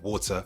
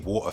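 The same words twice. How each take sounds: First: The middle T is fully pronounced. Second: The middle T is a glottal stop. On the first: "and not water" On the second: "the use of a glottal stop. We do this as well in London. I say water"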